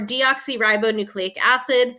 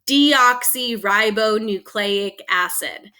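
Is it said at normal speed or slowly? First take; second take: normal; slowly. First: It is said at a normal pace. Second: It is said slowly and carefully.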